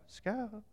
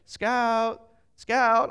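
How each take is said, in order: First: Soft, token call for the dog; half-hearted call. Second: Loud, higher searching call; calling a lost dog. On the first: Reluctant brother-in-law searching for the dog, half-hearted call. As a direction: call it without putting any volume in. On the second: Searchers going around the streets for a runaway dog, calling out. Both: Retold or imitated.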